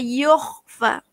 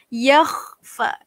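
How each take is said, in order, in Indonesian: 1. Vokal pertama adalah bunyi 'o' bulat. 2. Vokal pertama adalah 'a' terbuka, tidak bulat. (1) "Jangan sebut yoh" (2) "Sebab baris ya, baris atas, baris fathah"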